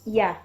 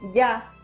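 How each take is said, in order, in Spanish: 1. El sonido de la y es suave y ligero. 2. El sonido de la y es fuerte, como en llave. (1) "la primera semivocal es ya" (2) "el sonido no es ya como, no sé, como por ejemplo en llave, no"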